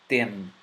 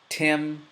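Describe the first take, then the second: First: It starts with a dental t sound. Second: It starts with an English t sound. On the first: "next with the ta" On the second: "So the first with the T"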